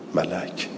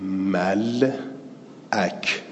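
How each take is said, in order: First: The syllables join with no glottal stop. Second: A glottal stop separates the two syllables. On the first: This is the form most speakers use. "بعد خود همزه رو حذفش کنید میشه چی؟" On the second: This is the original form of the word. "بعضی عرب ها همین ملعک با همزه تلفظ میکنند"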